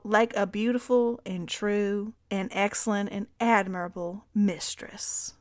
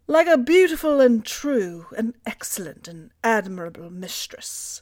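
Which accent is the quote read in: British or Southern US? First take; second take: Southern US; British. First: It is read in a Southern US accent. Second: It is read in a British accent. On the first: "Stop with the southern accent" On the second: "I'll do British"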